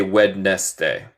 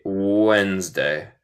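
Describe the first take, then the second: First: Wednesday wrongly said as "wed-nes-day"; spelling pronunciation. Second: Wednesday as "wenz-day", two syllables; correct pronunciation. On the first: Teacher shows students what not to say, spelling pronunciation. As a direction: sound the silent D in "Wednesday", three syllables. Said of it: "No se dice". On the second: Teacher corrects the spelled-out version, correct pronunciation. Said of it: "pero se dice". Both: Shown as a demonstration.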